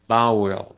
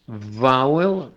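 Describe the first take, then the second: First: Vowel said as bowel with a b; vowel with a Spanish b; wrong b sound. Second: Vowel with a buzzing v; Vowel with teeth on lip; right v; correct v. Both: Shown as a demonstration. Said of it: "Porque si no".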